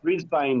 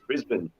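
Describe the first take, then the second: First: It is said with an American pronunciation. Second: It is said with an Australian pronunciation. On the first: The speaker calls it wrong. "you said Brisbane before" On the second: The speaker calls it right. "in Australia we pronounce it Brisbane"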